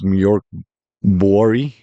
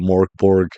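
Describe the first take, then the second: First: The name is said with Swedish-like sounds. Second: The name is said with plain English sounds. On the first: The speaker calls it right. "is how it's really said" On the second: The speaker calls it wrong. "I'm just gonna call it Morkborg"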